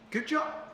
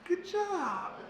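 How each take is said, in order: First: It sounds offhand and casual. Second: The pitch rises slightly and the voice softens. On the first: The talk was just okay. "it comes across just casual" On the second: The talk did not go so well. "the pitch rises slightly and it softens"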